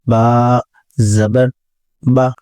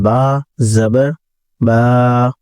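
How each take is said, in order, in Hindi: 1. आखिरी स्वर को छोटा रखा जाता है, खींचा नहीं जाता। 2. आखिरी स्वर को लंबा खींचा जाता है। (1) "इसको बगैर खींचे पढ़ा जाता है" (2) "तो इसका मखरज खराब हो जाता है"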